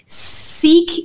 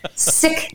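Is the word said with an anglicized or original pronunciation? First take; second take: anglicized; original. First: It uses the anglicized English pronunciation. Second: It uses the original, non-anglicized pronunciation. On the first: The speaker calls it wrong. "Sikh is not the right way to say it" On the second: The speaker calls it right. "Sikh is the right way to say it"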